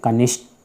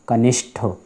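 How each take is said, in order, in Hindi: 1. अंतिम व्यंजन अल्पप्राण है। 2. अंतिम व्यंजन महाप्राण है। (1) "टा और ठा संबंधी ... कनिष्ठ नहीं" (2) "नहीं कनिष्ठ"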